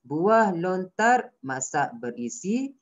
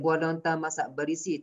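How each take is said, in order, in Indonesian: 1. Ada jeda sebentar setelah 'lontar'. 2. Dibaca terus tanpa jeda. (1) "Awak kena berhenti" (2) "awak tak boleh baca straight je"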